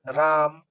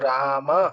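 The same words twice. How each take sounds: First: The word ends on a consonant, no final vowel. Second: The word ends with a short final a vowel. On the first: This is how Hindi speakers say it. "तो ऐसे हलंत कर देते हैं" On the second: This is how it is said in Sanskrit. "औकार के साथ ही उच्चारण करना पड़ेगा"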